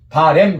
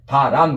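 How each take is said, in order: First: The second syllable has an 'ae' vowel. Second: The second syllable has an 'a' vowel. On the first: The speaker calls it wrong. "그러면 안 돼" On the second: The speaker calls it right. "그래야 돼"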